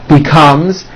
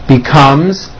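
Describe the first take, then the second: Both takes have the same delivery.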